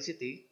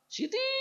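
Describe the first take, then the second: First: The name is called calmly with short vowels. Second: The name is called angrily with a drawn-out vowel. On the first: Calling the child in an ordinary situation. "Kalau sedang biasa-biasa kita panggil Siti, memang tak ada panjang" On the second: Calling the child when annoyed. "kalau sudah marah"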